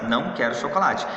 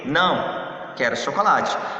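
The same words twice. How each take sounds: First: The words run together without a pause. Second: There is a pause after the first word. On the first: The speaker refuses chocolate. "é uma negação" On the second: The speaker rejects something else and wants chocolate. "este não vai fazer uma pausa"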